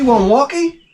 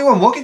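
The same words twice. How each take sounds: First: The phrase is said at a slower pace. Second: The phrase is said at a rapid pace.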